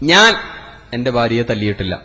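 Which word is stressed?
ഞാൻ. The first word carries the stress. Someone else hit her. "ഞാൻ തല്ലിയിട്ടില്ല. നാട്ടുകാർ കൈവച്ചിട്ടുണ്ടാവും"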